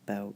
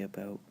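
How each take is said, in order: First: The vowel sounds like general American English. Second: The vowel sounds Canadian-like, southern mixed with British. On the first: "instead of about" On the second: "I say about"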